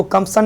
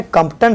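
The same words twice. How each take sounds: First: कंपसन said with an S in place of the T; कंपसन with an S sound before the final -an; mistaken S reading. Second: कंपटन said with a T, not an S; कंपटन with a T sound before the final -an; correct T reading. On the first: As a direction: show the misreading कंपसन, "Kamp-san". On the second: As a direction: show the reading कंपटन, "Kamp-tan". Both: Shown as a demonstration. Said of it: "इसको कंपसन नहीं पढ़ेंगे".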